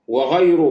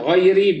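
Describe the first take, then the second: First: The word ends with a u vowel. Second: The word ends with an i vowel. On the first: It describes the word any. "بالضم" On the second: It describes the word letter. "بالكسر"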